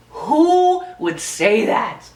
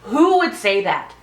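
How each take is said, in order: First: Drawn-out, disbelieving; slow incredulous repeat. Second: Said in the usual way. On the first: Shown as a demonstration. Repeating her question slowly in disbelief. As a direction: stretch each word in disbelief. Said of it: "first take plainer". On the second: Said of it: "repeated slower".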